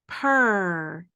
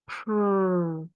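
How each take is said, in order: First: A vowel sound sits between p and r. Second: The p and r blend with no vowel. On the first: The speaker calls it wrong. "Don't make that cat sound" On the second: The speaker calls it right. "Let's make the sound again"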